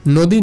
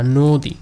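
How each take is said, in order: First: নদী said as the rejected "naw-dii"; wrong vowel. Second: নদী said "noo-dii", rounded first vowel; correct o-sound. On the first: Teacher rejects this reading, open-vowel mispronunciation. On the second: Teacher gives students the right form, o-sound. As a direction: model নদী with a long closed o. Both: Shown as a demonstration. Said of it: "নদী না".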